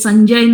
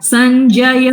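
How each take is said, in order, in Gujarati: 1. છેલ્લો ya ઉચ્ચાર ટૂંકો કરીને બોલાય છે. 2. છેલ્લો ya ઉચ્ચાર પૂરેપૂરો સંભળાય છે. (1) "સંજય નથી" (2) "ય યકાર આખો સંભળાવવો જોઈએ"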